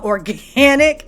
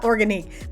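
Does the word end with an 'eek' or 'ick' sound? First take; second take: ick; eek. First: The word ends with a short 'ick' sound. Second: The word ends with a long 'eek' sound. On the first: The speaker calls it right. "the brand is called Organic" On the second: The speaker calls it wrong. "not Organique. The Q U E threw me off"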